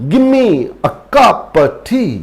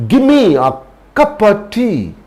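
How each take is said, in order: The two takes are said the same way.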